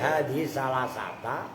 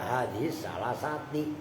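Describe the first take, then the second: First: The last word ends in an a vowel. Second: The last word ends in an i vowel. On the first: The exception word is read as a verb. "Kalau salah sata itu tadi cara bacanya" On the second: The exception word is read as a preposition. "Kalau salah sati adanya dianggap sebagai huruf"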